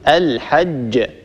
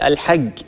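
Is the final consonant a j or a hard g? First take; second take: j; hard g. First: The final consonant is a j sound. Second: The final consonant is a hard g sound. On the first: The speaker calls it right. "الصواب" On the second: The speaker calls it wrong. "يقول الحج هكذا"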